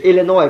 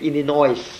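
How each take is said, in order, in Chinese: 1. 词尾的S不发音。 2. 词尾的S要发音。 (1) "那没有的，是Illinois" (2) "不是Illinois"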